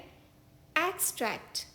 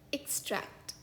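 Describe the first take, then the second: First: The stress is on the first syllable. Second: The stress is on the second syllable. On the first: A short passage taken from something larger. "इस शब्द का दूसरा उच्चारण है" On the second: To pull something out. "इस शब्द का एक उच्चारण है"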